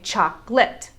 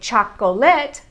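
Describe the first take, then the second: First: It is said with two syllables. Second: It is said with three syllables. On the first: It is the usual everyday form. "as we Americans normally do, we say chocolate. We cut out the schwa sounds in the middle" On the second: It follows the spelling. "We could say chocolate the way that it's spelled"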